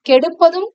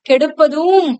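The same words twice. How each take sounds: First: The final vowel is said short and plain. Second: The final vowel is stretched long with emphasis. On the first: "கெடுப்பதும்னே இருந்திருக்கலாம்" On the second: "இன்னும் அழுத்தி சொல்லும் பொழுது வலியுறுத்தி சொல்றோம்"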